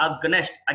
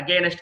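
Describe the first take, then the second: First: Against said "AG-nest"; correct pronunciation. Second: Long ay in against; mistaken pronunciation. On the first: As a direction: squeeze against short, no ay. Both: Shown as a demonstration. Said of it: "against కాదు".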